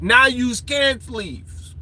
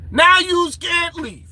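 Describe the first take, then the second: First: Slow, drawn-out mock threat; mock menace. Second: Higher, slow, drawn-out mock threat; emphatic mock menace. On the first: Warning those who ignored the chance to leave, slow mock menace. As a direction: draw it out, trapping the listener. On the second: Telling those who stayed they are trapped, higher slow mock menace. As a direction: raise it and stretch every word as a threat.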